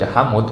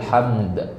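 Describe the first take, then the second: First: A vowel is inserted between the m and d. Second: The final d is pronounced clearly and fully. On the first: "asal jangan dibaca hamud. Kalau hamud nggak boleh" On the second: "boleh, terang-terangan disebutkan"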